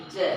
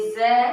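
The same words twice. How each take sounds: First: जै with a hard j as in jar; जै, a plain j with no buzz; plain j sound. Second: ज़ै with a buzzing z sound, not a j; ज़ै, the z pressed out loud and clear; nukta z sound. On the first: Teacher contrasting for students: जै with a plain j. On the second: Teacher showing students the nukta sound: ज़ै with a clear z. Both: Shown as a demonstration. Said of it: "दोनों के उच्चारण में अंतर है".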